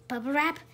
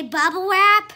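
First: Said in the usual way. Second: Loud. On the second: Shown as a demonstration. Parent repeating the word for the child, loud. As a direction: bubble wrap called out loud and high. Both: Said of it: "This time I say".

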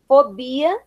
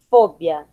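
First: Said in the usual way. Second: "fóbia" low, stressed on FO; Spanish stress. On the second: Shown as a demonstration. Teacher reading the list, "fóbia" with Spanish stress on FO. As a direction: say "fóbia" as FO-bia, falling. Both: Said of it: "diferença entre as palavras heterotônicas".

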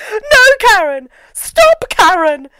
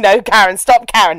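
First: High, loud melodramatic pleading; mock shouting. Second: Said in the usual way. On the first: Host imitates the exorcism ending, hammed-up shouting. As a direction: shriek it like a hammy exorcist. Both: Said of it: "just kept shouting".

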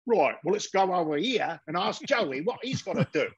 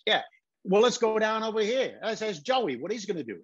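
First: Exaggerated Cockney, pitched up; mock a failed New York accent that comes out Cockney. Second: Pitched-up New York accent. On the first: British actors playing New York gamblers, broad Cockney accent. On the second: Shown as a demonstration. Guys and Dolls gamblers talking to each other, New York accent. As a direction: do it as authentic New York talk. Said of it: "instead of, uh, you know, when they're talking".

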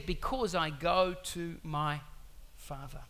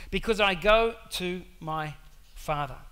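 First: Slow, measured first reading of "Because I go to my Father", fading away on "Father". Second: "Because I go to my Father" again, louder, hitting "go"; emphatic repeat. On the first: Preacher reads the verse slowly to the congregation. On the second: Preacher repeats the verse for emphasis, louder. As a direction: press hard on "go" in "Because I go to my Father". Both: Shown as a demonstration.

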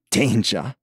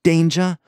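First: Said in the usual way. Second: Danger? snorted high and loud, scornful. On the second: A narrator's reading. Kurt scoffing at Ross, high loud scornful Danger?. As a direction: spit out Danger? with loud contempt. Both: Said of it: "Kurt snorted".

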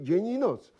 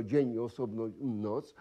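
First: "dzień i noc" run together as one high unit; one tone across all of "dzień i noc"; joined into one beat. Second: "dzień" and "noc" each stressed on its own; two separate accents, on "dzień" and on "noc"; separate beats. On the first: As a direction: say "dzień i noc" as a single accented group, no break. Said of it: "mogą połączyć się sylaby w jeden ton". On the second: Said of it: "Nie osobno dzień i osobno noc". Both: Shown as a demonstration.

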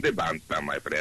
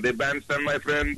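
First: Put-on low accented echo of the catchphrase; deep bandstand echo. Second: Hammed-up foreign bandstand host; bandstand announcer. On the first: Guest echoing his own bandstand intro, deep voice. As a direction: drop into a very low announcer voice. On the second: Bandstand bit in alternating voices.

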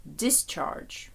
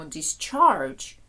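First: Discharge stressed on the first syllable; DIS-charge, weight up front; noun stress. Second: Discharge stressed on the second syllable; dis-CHARGE, weight on the last syllable; verb stress. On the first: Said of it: "коли іменник discharge". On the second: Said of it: "коли дієслово ми кажемо discharge". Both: Shown as a demonstration.

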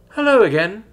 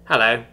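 First: High, loud, cheery greeting; sing-song cheerful hello; cheerful chime. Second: Unimpressed, deadpan hello; dry. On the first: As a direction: chime it out brightly. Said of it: "she cheerfully chimed". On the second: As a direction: answer drily, without enthusiasm. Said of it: "Reprig answered dryly". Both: A narrator's reading.

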